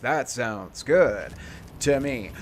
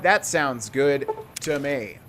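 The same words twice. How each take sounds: First: It is said in a deep announcer voice. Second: It is said in an ordinary speaking voice.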